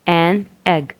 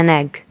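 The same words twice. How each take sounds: First: The two words are said separately. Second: The final n runs into the next vowel.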